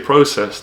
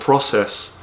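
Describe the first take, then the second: First: It is said with a British accent. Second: It is said with an American accent. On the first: "The English, we say process" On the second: "The Americans... you pronounce it more process"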